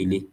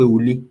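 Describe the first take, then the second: First: The first vowel is an 'ee' sound. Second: The first vowel is an 'oo' sound. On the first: This is the general Yoruba form. "general Yorùbá language tó bá sọ pé ilé" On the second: This is a regional dialect form. "àwọn ẹ̀yà Yorùbá kan tó bá sọ pé ulé"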